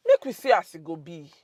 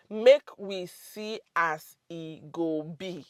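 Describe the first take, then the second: First: Said in the usual way. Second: "Make we see as e go be" slowly, word by word; slow and separated. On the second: Shown as a demonstration. Teacher repeats "Make we see as e go be" for learners, slow and deliberate. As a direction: spell out "Make we see as e go be" at dictation speed.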